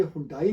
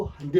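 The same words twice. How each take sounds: First: हुंडई as "hoon-dai"; wrong "hoon-DAA-ee" for हुंडई; rejected pronunciation. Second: हंडे as "hun-day", pitched lower; correct pronunciation. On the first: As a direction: say हुंडई with oo and an "ai" ending. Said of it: "हुंडई नहीं इसको पढ़ते हैं". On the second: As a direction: say हंडे with a short uh, ending in "ay". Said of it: "इसको हंडे पढ़ते हैं". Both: Shown as a demonstration.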